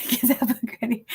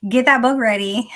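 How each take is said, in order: First: Said in the usual way. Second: Excited cheer. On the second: Real, not acted. Cheering friend on.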